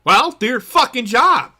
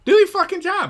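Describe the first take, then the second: First: Real frustration, hammer the word job; furious shout at lazy players; loud rant. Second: The same demand pushed up in pitch; higher, louder repeat. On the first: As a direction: punch it out, fed up and loud. Ranting about players being yelled at. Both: Real, not acted.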